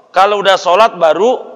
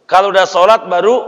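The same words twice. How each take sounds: The two takes are said the same way.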